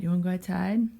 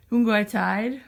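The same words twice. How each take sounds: First: Said in the usual way. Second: High cooing pet voice. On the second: Real, not acted. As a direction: coo the question to the cat. Asking the cat again.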